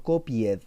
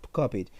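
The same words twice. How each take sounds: First: Copied read out as written, copi-ed; spelling pronunciation. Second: Said in the usual way. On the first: Shown as a demonstration. Teacher shows the class the new ending, copied sounded out as written.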